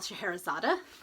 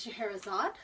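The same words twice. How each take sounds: First: The name ends with an extra final vowel sound. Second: The name ends without a final vowel sound.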